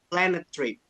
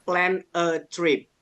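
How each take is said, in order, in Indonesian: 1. Kata-katanya menyambung cepat tanpa jeda. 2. Setiap kata diucapkan terpisah, dengan jeda kecil. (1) "kalau mau dibaca cepatnya" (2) "Kalau dipisah"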